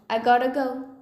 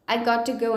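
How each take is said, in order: First: Got to is reduced to gotta. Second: Got to is said as two full words.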